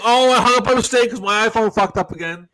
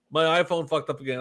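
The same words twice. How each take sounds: First: Higher, louder mocking imitation; hammed-up excuse; mock Andrew excuse. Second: Said in the usual way. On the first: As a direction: imitate a friend's lame excuse. Quoting Andrew's excuse on phone.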